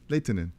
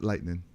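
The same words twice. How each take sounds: First: The word is said carefully, every sound clear. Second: The word is said in a lazy, reduced way. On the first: The speaker calls it right. "good pronunciation" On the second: The speaker calls it wrong. "We get lazy and just say lightning"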